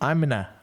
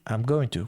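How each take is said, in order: First: Going to is reduced to a short na. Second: I am is contracted; going to is said fully. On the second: "quando você abrevia"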